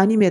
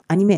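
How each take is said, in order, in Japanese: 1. 日本語の発音で言います。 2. フランス語の発音で言います。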